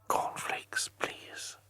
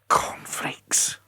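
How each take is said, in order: First: It is said in a soft whisper. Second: It is said in a loud whisper.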